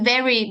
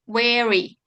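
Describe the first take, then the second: First: The word starts with a v sound. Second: The word starts with a w sound.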